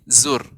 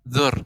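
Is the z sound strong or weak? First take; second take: strong; weak. First: The z sound is strong and distinct. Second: The z sound is weak and unclear. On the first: The speaker calls it right. "tapi zur" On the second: The speaker calls it wrong. "enggak zur"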